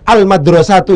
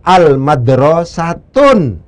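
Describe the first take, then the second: First: The word ends in a plain vowel, without n. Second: The word ends in a vowel followed by n. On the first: The speaker calls it right. "itu juga benar" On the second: The speaker calls it wrong. "yang salah itu adalah al madrasatun. Sudah diberi al, ditanwin lagi"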